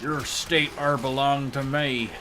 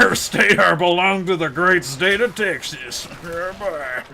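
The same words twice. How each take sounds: First: Put-on slow, half-landed Southern accent; failed Southern accent attempt. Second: Loud, high, hammed-up Texan accent; memeable Southern accent. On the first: Claiming a state, slow failed Southern accent. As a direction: try a Texan accent and miss. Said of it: "That's not the accent". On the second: Claiming a state for Texas, hammed-up Southern accent. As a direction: crow it in a cartoon Southern accent. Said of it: "southern accent".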